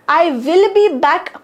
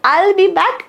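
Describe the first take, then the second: First: The words 'I will' are said in full. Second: The words 'I will' are contracted together. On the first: "आय विल be back पण म्हणू शकता" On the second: "अजून थोडंसं fluent sound करायचं असेल तर"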